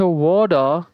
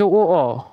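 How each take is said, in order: First: American accent. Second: British glottal "wo-o", t dropped; British accent. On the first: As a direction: say ওয়াটার the American way, "waw-da". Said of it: "American অ্যাকসেন্টে". (American উচ্চারণে "ওয়াডা") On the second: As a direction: drop the t in water, British style. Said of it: "British অ্যাকসেন্টে ওয়াটার এবং ও". (British উচ্চারণে ট ছাড়া "ওয়-অ") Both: Shown as a demonstration.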